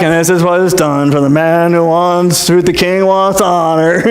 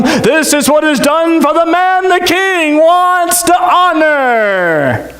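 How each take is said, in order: First: Without gusto. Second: High, slow, ringing announcement; grand proclamation. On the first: Retold or imitated. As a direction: announce it like it hurts. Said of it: "not said with much gusto". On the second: Acted. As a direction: proclaim it to the whole square with pomp.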